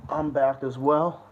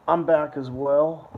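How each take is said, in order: Both takes have the same delivery.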